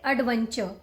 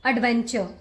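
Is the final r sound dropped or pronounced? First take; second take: dropped; dropped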